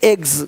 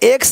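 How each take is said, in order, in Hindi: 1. यह शब्द z की आवाज़ से खत्म होता है। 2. यह शब्द s की आवाज़ से खत्म होता है।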